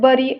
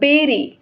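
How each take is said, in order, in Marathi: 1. पहिला स्वर 'buh' सारखा वाजतो. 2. पहिला स्वर 'beh' सारखा वाजतो. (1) "नॉट बरी" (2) "बट इट प्रोनाउन्स बेरी"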